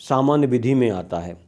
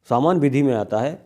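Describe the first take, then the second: Both takes have the same delivery.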